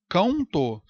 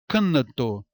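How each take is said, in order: First: The vowel glides into a U-like semivowel. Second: The N is a full consonant with an extra vowel. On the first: "Ninguém fala isso" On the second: "Não fala isso"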